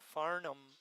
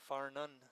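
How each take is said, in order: First: The name ends with an M sound. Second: The name ends with an N sound. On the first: "He keeps saying Farnham like an M" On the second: "and I say Farnun"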